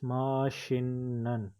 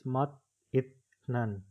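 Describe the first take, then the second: First: The middle consonant is an s sound. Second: The middle consonant is a t sound. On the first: The speaker calls it right. "It is mashinnan" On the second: The speaker calls it wrong. "You are thinking that it is mat-itnan, but it is not"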